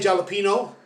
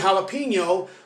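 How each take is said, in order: First: The word begins with an English J sound. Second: The word begins with a Spanish H-like sound. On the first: The speaker calls it wrong. "We don't say jalapeno" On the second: The speaker calls it right. "like they do in Spanish"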